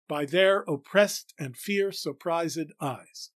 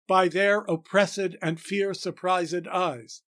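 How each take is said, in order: First: Only the ed of surprised is a syllable. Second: An extra unstressed syllable sits mid-line. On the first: The speaker calls it right. "don't pronounce it as a syllable, and pronounce the second as a syllable, we get it right" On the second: The speaker calls it wrong. "puts an annoying extra unstressed syllable in the middle of the line"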